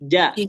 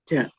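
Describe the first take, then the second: First: The j is clean, with no ch sound. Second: The j has a ch-like sound in it. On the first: The speaker calls it right. "Coba dihilangin C-nya" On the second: The speaker calls it wrong. "itu kayak orang Jawa jadi ada mendok-mendoknya"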